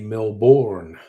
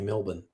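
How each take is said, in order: First: Every letter is sounded, with a full second syllable. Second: The second syllable is reduced and quickly clipped. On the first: It follows the spelling. The speaker calls it wrong. "we don't say Melbourne" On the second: It is the quick local way. The speaker calls it right. "we say Melbourne. We don't have time to pronounce all the letters"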